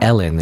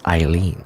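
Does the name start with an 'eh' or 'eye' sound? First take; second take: eh; eye. First: The name starts with an 'eh' sound. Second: The name starts with an 'eye' sound. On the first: The speaker calls it wrong. "So it's not Ellen" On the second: The speaker calls it right. "It's Eileen"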